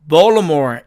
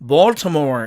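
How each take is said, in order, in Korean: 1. t 소리는 생략됩니다. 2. t 소리가 분명히 발음됩니다. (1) "트가 사라져서 원어민들은 이 단어를 Baltimore" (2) "사전식 발음은 Baltimore"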